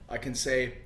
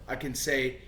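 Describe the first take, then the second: No difference in how they are said.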